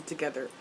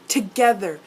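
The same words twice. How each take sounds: First: Said in the usual way. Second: "Together" said louder with emphasis; stress on Together. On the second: Shown as a demonstration. Fan imagining a night with Magnus, emphasis on "Together". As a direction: hit "Together" hard as one punched word. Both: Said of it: "Emphasis on together".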